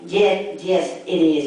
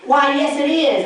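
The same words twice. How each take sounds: First: Said in the usual way. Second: Higher, prim, mock-proper "Why, yes"; proper annoyed hostess. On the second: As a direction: imitate an annoyed lady speaking proper. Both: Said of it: "they gotta speak proper 'cause they're annoyed".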